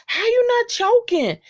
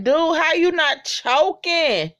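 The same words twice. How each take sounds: First: Much higher, pinched repeat of the question; shrill mock amazement at the eater; high squeaky disbelief. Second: Disbelief. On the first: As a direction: squeak it out like you can't believe it. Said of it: "And I'm like". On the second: Retold or imitated. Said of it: "I'm like".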